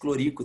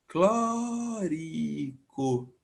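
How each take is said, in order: First: The stress is on the second syllable. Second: The stress is on the first syllable. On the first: The speaker calls it wrong. "não existe clorico" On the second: The speaker calls it right. "Toda proparoxita"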